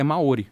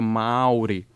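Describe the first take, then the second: First: The stress is on the second syllable. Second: The stress is on the first syllable. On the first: The speaker calls it wrong. "o natural para o brasileiro, para o falante de português falar é Maori" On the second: The speaker calls it right. "tem a função de prolongar a vogal... o que na prática torna aquilo tônico. Então seria Mauri"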